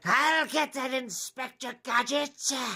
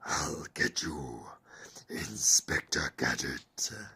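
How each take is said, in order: First: It is a British Skeletor-style villain voice. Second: It is a Doctor Claw-style villain voice.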